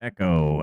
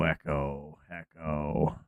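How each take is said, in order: First: Said in the usual way. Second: Fading echo. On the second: Shown as a demonstration. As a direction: echo fading away into quiet. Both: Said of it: "Am I echoing?".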